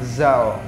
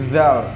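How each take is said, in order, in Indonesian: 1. Diawali dengan gigi tertutup, seperti z. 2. Diawali dengan lidah di antara gigi. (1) "kalau zal itu giginya tertutup rapat seperti huruf Z, tapi salah" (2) "Yang benar adalah zal. Lidahnya di antara dua gigi"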